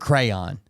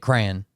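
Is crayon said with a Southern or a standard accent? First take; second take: standard; Southern. First: The word is said with a standard accent. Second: The word is said with a Southern accent.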